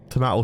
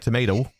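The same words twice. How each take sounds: First: Tomato is said with a British accent. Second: Tomato is said with an American accent.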